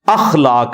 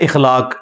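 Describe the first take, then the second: First: The word begins with an 'a' vowel. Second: The word begins with an 'i' vowel. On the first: This is the original form of the word. The speaker calls it right. "अखलाक लफ्ज है" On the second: This is how many people commonly say it. The speaker calls it wrong. "ये लोग बोल देते हैं इखलाक, इखलाक लफ्ज नहीं है"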